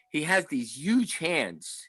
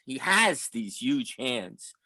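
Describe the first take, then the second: First: "huge" stressed, slow delivery. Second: "has" stressed, slow insistent repeat. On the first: Fan recalling Willie signing books, slow stress on "huge". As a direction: lean slowly on the word "huge". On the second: Fan insisting on what he saw, slow stress on "has". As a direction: lean firmly on "has", taking it slowly. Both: Real, not acted. Repeats line, shifting the emphasis.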